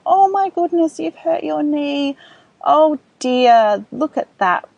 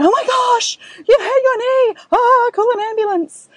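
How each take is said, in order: First: Put-on higher, gently concerned, matching the child; caring parent voice. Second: Much higher and louder, hammed-up panic; overreacting panicked parent. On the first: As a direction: soothe a hurt toddler, concerned but calm. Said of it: "we'll use that kind of language to demonstrate". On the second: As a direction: shriek like the knee is a disaster. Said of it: "that's just going to take their levels up higher". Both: Shown as a demonstration.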